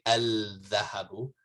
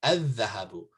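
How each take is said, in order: First: Al-dhahabu with the l sounded; wrong al-dhahabu. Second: Adhahabu with the lam silent; right adhahabu. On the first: Teacher shows students the wrong al-dhahabu. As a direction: say al-dhahabu with a clear lam. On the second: Teacher gives students the correct adhahabu. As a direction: say adhahabu, dh doubled, no l. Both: Shown as a demonstration. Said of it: "You don't say al-dhahabu".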